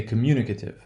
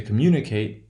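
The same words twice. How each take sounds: First: Communicative with MU stressed and "ate" reduced to a schwa. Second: Communicate with MU stressed and a full "ate" ending. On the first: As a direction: say communicative, punching MU, weak "kuh-tiv" ending. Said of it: "that eight becomes, uh". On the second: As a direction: say communicate, punching MU, ending clearly on "kate". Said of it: "the place of stress in the original word will not change". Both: Shown as a demonstration.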